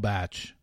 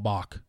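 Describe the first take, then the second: First: It sounds like batch, with a short a vowel. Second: It sounds like bock, with an ah vowel. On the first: The name refers to The Bachelor. The speaker calls it right. "She's All Batch" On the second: The name refers to the composer. The speaker calls it wrong. "That is hilarious that Ben thought that's how you pronounced it"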